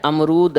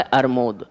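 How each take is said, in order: First: Said in the usual way. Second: अरमूद as "ar-mod", r before m; child's mispronunciation. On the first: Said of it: "अब सही शब्द क्या है". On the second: Retold or imitated. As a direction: say अरमूद lower, sounds swapped to "ar-mod". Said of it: "वो क्या उच्चारण कर रहा है".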